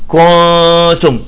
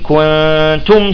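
First: The first vowel is stretched into a long vowel. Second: The first vowel is kept short before the n. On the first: The speaker calls it wrong. "بيطلع لك لاحظتوا حرف مد كو" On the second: The speaker calls it right. "لا نقول كنتم مباشرة"

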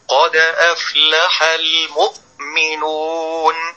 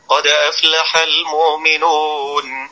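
First: The glottal stop is pressed hard and strained. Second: The glottal stop is weak and slack. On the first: "ده بيضغط على الهمزة قوي" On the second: "فهذا قرأ الهمزة بتواني، أي بضعف وخمول"

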